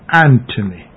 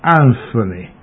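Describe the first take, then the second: First: The middle consonant is a plain T sound. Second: The middle consonant is a TH sound. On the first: The speaker calls it right. "is pronounced Anthony" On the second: The speaker calls it wrong. "not Anthony"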